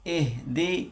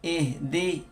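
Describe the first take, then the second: Both takes have the same delivery.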